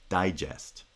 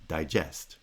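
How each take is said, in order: First: DIgest, strong then weak; front-stressed noun digest; stress on first syllable. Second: DiGEST, weak then strong; end-stressed verb digest, di still a full vowel; stress on second syllable. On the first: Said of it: "strong followed by weak". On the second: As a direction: digest with the stress landing on GEST. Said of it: "weak followed by strong". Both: Shown as a demonstration.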